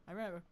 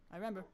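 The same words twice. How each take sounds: The two takes are said the same way.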